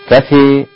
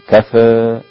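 First: The final vowel leans strongly toward ee. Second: The final vowel leans slightly toward ee. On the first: "الإمالة" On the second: "هذا التقليل"

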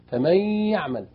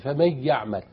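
First: The n merges into y with nasal hum. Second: The n merges into y without nasal hum. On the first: The speaker calls it right. "نأخذ بالنا من الواو والياء زيه" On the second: The speaker calls it wrong. "ما تقولش"

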